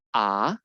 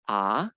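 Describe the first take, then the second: First: The pitch rises from low to high. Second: The same.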